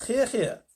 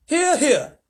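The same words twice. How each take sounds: First: Echoing cheer. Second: High, loud cheer; cheering shout. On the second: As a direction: shout agreement. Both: A narrator's reading. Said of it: "they all shouted".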